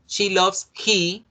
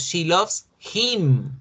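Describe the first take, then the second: First: "She loves he" slow and higher, marked as wrong; slow teacher demo of the error; slow wrong example. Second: Slow teacher demo of the correct form; slow correct example. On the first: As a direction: stretch out the mistake "She loves he". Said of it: "no decimos". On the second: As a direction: stress "him" slowly as the right form. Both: Shown as a demonstration.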